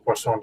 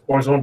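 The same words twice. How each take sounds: First: It is pronounced with a French sound. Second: It is pronounced with an anglicized sound. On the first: "actually the French pronounce this as" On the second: "most of most people pronounce this as"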